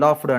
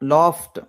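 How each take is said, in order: First: The word ends with a d sound. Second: The word ends with a t sound. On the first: The speaker calls it wrong. "అన్నీ కూడా డి ఇచ్చేస్తున్నాం" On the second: The speaker calls it right. "ఇవన్నీ కూడా టీతో end అవుతాయండి"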